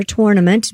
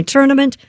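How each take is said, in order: First: "tournament" with a full TOR at the front; alternative pronunciation. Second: Said in the usual way. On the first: Shown as a demonstration. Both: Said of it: "depending on how you pronounce it".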